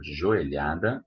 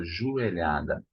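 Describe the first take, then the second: First: "joelhada" with a clear o in jo; standard pronunciation. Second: "joelhada" with jo turned to ju; colloquial pronunciation. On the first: Teacher presenting the knee-strike word, standard pronunciation. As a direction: say "joelhada" as "jo-e-lha-da". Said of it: "It's not right". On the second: Teacher allowing the everyday variant, colloquial pronunciation. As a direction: say "joelhada" as "ju-e-lha-da". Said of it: "It's not right, but since everybody's saying that". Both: Shown as a demonstration.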